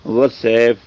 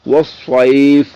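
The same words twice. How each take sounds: First: وسیف with a thin seen instead of saad; demonstrating the mistake to avoid; wrong thin version. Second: وسیف very slow, louder, with a thick saad; showing the right way after the wrong one; correct heavy saad. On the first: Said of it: "تو یہ باریک ہو گیا". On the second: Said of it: "یوں اس کو پڑھنا ہے". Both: Shown as a demonstration.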